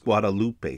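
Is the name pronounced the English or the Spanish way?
Spanish. It is pronounced the Spanish way. This is the actual name. The speaker calls it right. "The college strip next to the University of Texas is Guadalupe Street"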